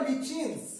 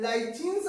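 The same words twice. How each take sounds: First: Lichens said LITCH-ins, short I and CH; alternative pronunciation. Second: Lichens said LIE-chins, long I and CH; alternative pronunciation. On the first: Teacher giving both names, lichens as LITCH-ins. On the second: Teacher giving both names, lichens as LIE-chins. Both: Shown as a demonstration. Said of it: "or lichens also it is called".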